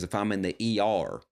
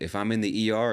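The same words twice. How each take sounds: First: The final R is strong and drawn out. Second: The final R is soft and light. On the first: "She says, ... R, R, R" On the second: "Now you hear the way I say it"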